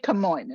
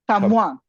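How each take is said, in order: First: The name is said with an American pronunciation. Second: The name is said with a French pronunciation. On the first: "they wouldn't say Camoin in France" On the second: "They would Camoin"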